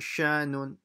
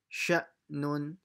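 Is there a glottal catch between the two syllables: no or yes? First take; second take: no; yes. First: The syllables run together without a glottal stop. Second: A glottal stop briefly separates the two syllables. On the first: The speaker calls it wrong. "It's not sha, nun" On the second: The speaker calls it right. "you pause slightly"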